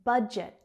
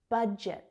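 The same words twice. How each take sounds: The two takes are said the same way.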